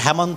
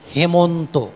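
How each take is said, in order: First: The first vowel is open, like 'cat'. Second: The first vowel is closer, like 'bed'. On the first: The speaker calls it wrong. "এটি হেমন্ত নয়" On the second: The speaker calls it right. "এ sound"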